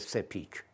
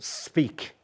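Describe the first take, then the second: First: An extra vowel is added around the s and p. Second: The s and p are said with no vowel. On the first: The speaker calls it wrong. "معمولا فارسی زبان یا میگه speak" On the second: The speaker calls it right. "s و p دو تا صدایی هست که صامت بهش میگیم، مصوتی بینشون نیست"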